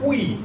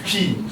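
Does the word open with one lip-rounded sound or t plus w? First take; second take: t plus w; one sound. First: It opens with a plain t then w. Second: It opens with one lip-rounded sound. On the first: The speaker calls it wrong. "when you see it written, you'll say Twi" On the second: The speaker calls it right. "So it's Chi"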